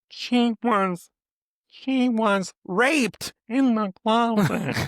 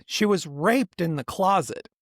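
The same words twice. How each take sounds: First: Mocking a prim mother who puts the stress on the wrong word; wrong emphasis. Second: Said in the usual way. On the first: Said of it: "blurs out the wrong words, wrong emphasis". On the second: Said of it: "if she had to say".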